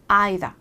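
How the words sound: It is said in a British accent.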